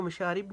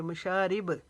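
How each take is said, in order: First: Said in the usual way. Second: मशारिब with a bounced final ब; qalqala. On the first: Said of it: "इसको मशारिब नहीं पढ़ेंगे". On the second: Shown as a demonstration. Teacher showing the correct reading, मशारिब ending in a bouncing b. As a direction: echo the last b of मशारिब with a tiny release. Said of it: "इस पर भी हम कलकला करेंगे".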